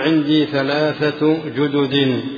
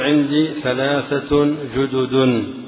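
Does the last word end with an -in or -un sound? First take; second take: in; un. First: The last word ends with an -in sound. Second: The last word ends with an -un sound. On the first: The speaker calls it wrong. "بالجر" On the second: The speaker calls it right. "بالرفع لا غير"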